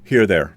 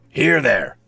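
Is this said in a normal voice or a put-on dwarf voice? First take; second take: normal; dwarf voice. First: It is said in his normal speaking voice. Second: It is said in a gruff put-on dwarf voice. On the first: It sounds like a confusing greeting. The speaker calls it wrong. "you can't just walk up to somebody and be like" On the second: It sounds like a normal greeting. The speaker calls it right. "If you do it in a dwarven voice like that guy, it makes perfect sense"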